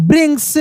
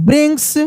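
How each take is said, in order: The two takes are said the same way.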